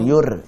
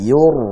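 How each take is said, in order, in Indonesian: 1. Bunyi r-nya tipis dan ringan. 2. Bunyi r-nya tebal dan penuh. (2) "tebalkan yur"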